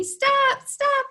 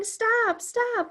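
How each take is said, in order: First: Much higher, louder mock shout of stop; kids telling stop. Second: Higher, mock children's shout of stop; kids yelling stop. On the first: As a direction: shout stop back as the class would. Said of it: "I hear you telling me". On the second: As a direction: call stop like the eager kids, lightly. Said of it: "some of you are yelling".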